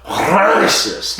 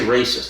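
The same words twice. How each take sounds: First: The word is pronounced in an odd, distorted way. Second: The word is pronounced the ordinary way. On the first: "they go racist" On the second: "don't say racist"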